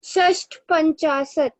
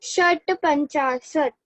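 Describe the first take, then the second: First: षष्टपंचाशत् with an extra ष before the ट; षष्टपंचाशत् said as सष्ट, adding a sibilant; wrong pronunciation. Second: षट्पंचाशत् with a clean retroflex ट्, no extra ष; student gets षट्पंचाशत् right as शट्; correct pronunciation. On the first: (षष्टपंचाशत् में ग़लत अतिरिक्त ष) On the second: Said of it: "Wow, now you are on the correct track". (षट्पंचाशत् का सही उच्चारण) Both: Real, not acted.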